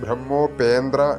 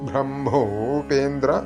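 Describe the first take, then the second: First: The m is said after the h. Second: The m is said before the h. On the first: The speaker calls it wrong. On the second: The speaker calls it right.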